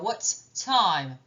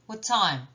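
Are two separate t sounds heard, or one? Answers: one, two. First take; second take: two; one. First: Both t sounds are pronounced separately. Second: The two t sounds merge into one. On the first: The speaker calls it wrong. "je ne vais pas faire" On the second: The speaker calls it right. "Il y en a un qui n'est pas lu"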